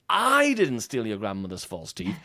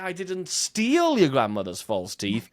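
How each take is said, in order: First: The word I carries the main stress. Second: The word steal carries the main stress. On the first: Someone else took them. "you're implying you know who did" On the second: They were taken but not stolen. "you're implying you borrowed them"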